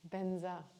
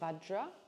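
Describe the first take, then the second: First: It starts with b and has a 'nza' ending. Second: It starts with v and has a 'jra' ending. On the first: This is how Tibetans say it. "the Tibetans pronounce it Benzai" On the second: This is the original Sanskrit form. "there's a word Vajra, which is part of the, the, the Sanskrit"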